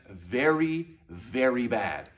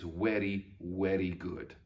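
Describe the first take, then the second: First: Slow "very" with a clear buzzing v; V sound. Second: Slow, low "very" said weddy. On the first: Teacher warning pupils off the V, slow buzzed very. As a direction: stretch each "very", teeth on lip. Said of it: "with the sound V". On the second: Teacher giving a memory trick, slow low weddy. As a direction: say "very" with a w and a tapped r. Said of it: "would have said the letter W". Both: Shown as a demonstration.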